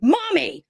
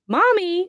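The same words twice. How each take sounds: First: Put-on high, panicky call of a lost little kid; scared child's cry. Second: Put-on high child's call of mommy. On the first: Unseen child calling mom through the bedroom door, higher and frightened. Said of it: "So it busts out that tone". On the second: Unseen child calling mom through the door, high and light. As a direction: call out like a little kid at the door.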